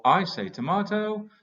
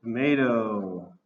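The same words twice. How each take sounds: First: Tomato said the British way, with a long ah, tom-AH-to. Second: Tomato said the American way, tom-AY-do. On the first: Teacher showing his British way to the class, tom-AH-to. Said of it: "I say tomato, you say". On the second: Teacher showing the American way to the class, tom-AY-do. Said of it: "you say". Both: Shown as a demonstration.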